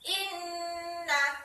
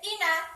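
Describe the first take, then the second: First: The n is held long with a nasal hum. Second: The n is short without a nasal hum. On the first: The speaker calls it right. "Jadi bacanya seperti ini" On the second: The speaker calls it wrong. "tidak boleh"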